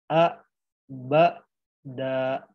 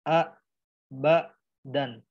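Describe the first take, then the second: First: The word ends on a vowel without n. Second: The word ends with a clear n sound. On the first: The speaker calls it right. "jadi dibacanya jadi a, ba, da" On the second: The speaker calls it wrong. "bukan a, ba, dan"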